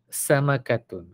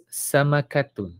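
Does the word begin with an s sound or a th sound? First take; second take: s; s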